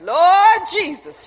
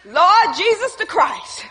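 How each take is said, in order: First: "Lord Jesus" with a long drawn-out "Lord"; imitated emphasis. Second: "Lord Jesus the Christ" slow, every name weighted; emphatic proclamation. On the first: Preacher imitating Sister Janet, "Lord Jesus" with "Lord" drawn out. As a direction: stretch "Lord" wide, then drop through "Jesus". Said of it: "She emphasized that". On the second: Shown as a demonstration. Preacher showing own emphasis, "Lord Jesus the Christ" slow and weighty. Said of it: "I emphasize it like this".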